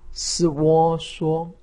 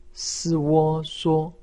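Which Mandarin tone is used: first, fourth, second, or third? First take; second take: first; first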